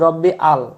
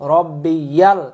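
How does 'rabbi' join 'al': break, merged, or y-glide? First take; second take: break; y-glide. First: The two parts are separated by a break. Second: A 'y' sound links the two parts. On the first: The speaker calls it wrong. "আমরা বলি রব্বি আল" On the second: The speaker calls it right. "রব্বিয়াল ইয়াল বলবেন"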